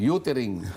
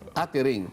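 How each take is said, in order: First: The first vowel is a rounded 'oo' sound. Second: The first vowel is an open 'uh' sound. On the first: The speaker calls it wrong. "Pero, pero sasabihin" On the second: The speaker calls it right. "O kung gagamitin mong uh, intransitive linking verb, halimbawa"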